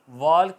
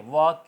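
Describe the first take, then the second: First: The word has an audible l sound before k. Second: The word has no l sound before k. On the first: The speaker calls it wrong. "वॉल्क नहीं होगा" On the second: The speaker calls it right. "आवाज़ आएगी"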